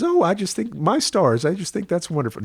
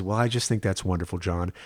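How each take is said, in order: First: Put-on grandmother's deep Texas accent delighted at the news. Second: A light touch of Texas, quick; just a hint of Texas twang; mother's milder Texas accent pleased at the news. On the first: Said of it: "that sort of deep Texas". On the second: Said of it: "My mother has a milder Texas accent".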